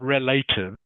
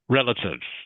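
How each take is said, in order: First: The second vowel sounds like 'ay' in 'relations'. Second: The second vowel sounds like a short 'i'. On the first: The speaker calls it wrong. "it's not relatives" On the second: The speaker calls it right. "the A is actually pronounced a bit like a short I sound"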